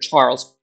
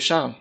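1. Der Name wird englisch ausgesprochen. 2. Der Name wird französisch ausgesprochen.

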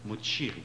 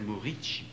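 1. Le nom se dit Moccieri. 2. Le nom se dit Moricci. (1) "C'est mademoiselle Moccieri" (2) "C'est pas mademoiselle Moricci"

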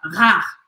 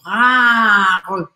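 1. A palavra é dita rápido, em um só bloco contínuo. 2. A palavra é dividida por uma pausa no meio. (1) "Você vai falar mais acelerado" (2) "E aí você pode aumentar, assim, esse tempo"

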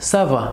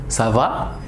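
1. C'est une intonation d'affirmation. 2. C'est une intonation de question. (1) "Y la respuesta sería ça va" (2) "La pregunta como en español"

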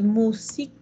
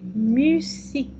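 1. La première voyelle est un son 'oo' arrière simple. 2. La première voyelle est un son 'u' antérieur arrondi. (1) "no decimos musique" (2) "c'est musique, avec les U"

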